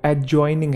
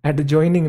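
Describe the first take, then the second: First: "एडजॉइनिंग" said a-joining; silent D. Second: "एडजॉइनिंग" wrongly said ad-joining; D pronounced. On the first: Teacher correcting students, "एडजॉइनिंग" with silent D. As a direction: drop the D, glide straight to J in "एडजॉइनिंग". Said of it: "जो डी है वो silent है". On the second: Teacher rejecting the mistake, "एडजॉइनिंग" with audible D. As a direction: voice the silent D in "एडजॉइनिंग". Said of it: "नहीं है वो". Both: Shown as a demonstration.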